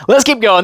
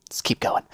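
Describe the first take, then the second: First: Higher, louder let's keep going; rally yourself out loud; louder push. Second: Whispered let's keep going; whispered push on. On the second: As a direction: breathe it under your breath. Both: Real, not acted. Whispered then loud.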